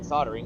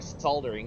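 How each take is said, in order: First: It is pronounced in a non-British way. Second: It is pronounced in a British way.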